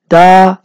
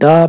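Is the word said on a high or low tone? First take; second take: high; low. First: The word is said on a high tone. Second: The word is said on a low tone. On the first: The action happened in the past. "ye high tone hoga" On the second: The action will happen in the future. "ye low tone hoga"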